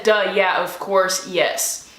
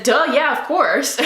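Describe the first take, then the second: First: Said in the usual way. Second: Giddy duh yeah. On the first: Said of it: "but I pretty much said". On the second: Retold or imitated. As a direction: blurt it out in happy disbelief. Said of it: "I didn't say it exactly like that".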